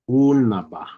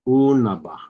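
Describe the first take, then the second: No difference in how they are said.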